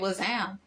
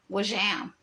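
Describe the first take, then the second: First: The middle consonant is a plain z sound. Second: The middle consonant is a sh-like sound. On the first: "most of us say was am" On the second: "some people say it with a sh"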